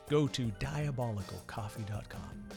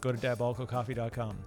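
First: The phrase is spoken more slowly. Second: The phrase is spoken quickly. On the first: The speaker calls it right. "That's better" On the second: The speaker calls it wrong. "Did I say that too fast?"

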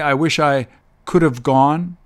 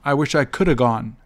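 First: Have is pronounced fully, at a slower pace. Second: Have is reduced to a quick 'a' sound. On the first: "So the long way" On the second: "When they're spoken quickly"

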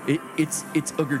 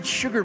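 First: The s sound opens a separate word, ugar. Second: The s sound starts the word sugar. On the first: The speaker calls it wrong. "I will make a concerted effort to mispronounce it" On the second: The speaker calls it right. "sure, it's sugar"

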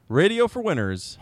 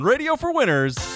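First: It is said flatly, without enthusiasm. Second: It is said with lively enthusiasm.

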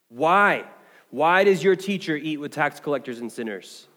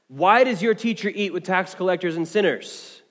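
First: It is said with mocking, hateful ridicule. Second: It is read in a plain, neutral tone.

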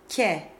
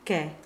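First: The k is made forward, on the palate. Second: The k is made at the back, velar. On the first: The speaker calls it right. "The tongue should be much further forward, with the big fat middle of the tongue up on the hard palate" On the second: The speaker calls it wrong. "it shouldn't sound like the Italian ke"

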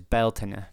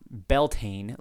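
First: It is pronounced with a Gaelic-style pronunciation. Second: It is pronounced the way English spelling suggests. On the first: The speaker calls it right. "but it's Beltane" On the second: The speaker calls it wrong. "it's not Beltane like we would think it says in English"

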